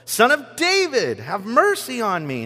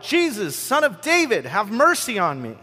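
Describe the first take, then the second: First: Higher, louder, more desperate plea; shouting all the more. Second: High, loud plea across a crowd; calling out. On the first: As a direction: cry out even harder than the first time. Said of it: "he shouted all the more". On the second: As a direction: cry out to be heard over the crowd. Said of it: "He called out". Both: A narrator's reading.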